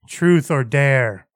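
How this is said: The put-on voice sounds flat and bland. The speaker calls it right. "that's pretty close. It's just so bland"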